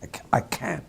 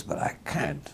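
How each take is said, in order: First: Whispered, higher put-on old baron accent; imitating Beaverbrook's accent. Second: A light imitation of the baron's accent, pitched higher; lightly put-on old press baron accent, higher and soft; imitating Beaverbrook's accent. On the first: Editor redoing Beaverbrook's line in a whispered put-on accent. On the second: Editor imitating Beaverbrook's greeting, in a light take on his accent. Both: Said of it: "I'm doing my best to imitate his accent".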